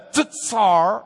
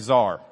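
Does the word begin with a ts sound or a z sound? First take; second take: ts; z. First: The word begins with a ts sound. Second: The word begins with a plain z sound. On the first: This is the Hebrew-style way of saying it. "But if you want to be Hebrew, it's the tsar and the tsadi" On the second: This is a casual local way of saying it. "If you're from Lubbock, you can just say czar"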